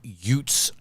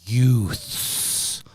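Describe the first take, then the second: First: The word ends without the th sound. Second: The th sound is pronounced with exaggeration. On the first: "the New York uh, way of saying youth" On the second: "he overpronounces it"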